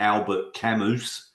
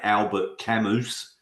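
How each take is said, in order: First: The name is said with an Australian pronunciation. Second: The name is said with an Australian pronunciation.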